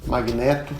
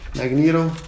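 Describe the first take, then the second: First: The word is pronounced the Portuguese way. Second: The word is pronounced the English way.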